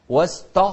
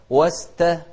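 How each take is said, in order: First: واست- with a thick, dark t; wrong heavy ta. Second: واست- with a thin, light t. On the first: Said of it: "غلط". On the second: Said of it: "مرققة". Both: Shown as a demonstration.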